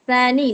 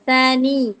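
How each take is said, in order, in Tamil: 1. கடைசி உயிரெழுத்து குறிலாக சொல்லப்படுகிறது. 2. கடைசி உயிரெழுத்து நீட்டி சொல்லப்படுகிறது. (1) "சில பேர் வந்து சானி சானி அப்படி சொல்லுவாங்க. சானி இல்ல" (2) "நூன் கஸ்ரா யா சுகூன் நீ எய்த் லெசன்ல படிச்சிருப்போம்ல நம்ம மத் மத் இருக்குன்னு"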